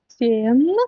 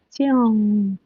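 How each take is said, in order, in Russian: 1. Слово заканчивается на обычный звук н. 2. Слово заканчивается на носовой звук нг.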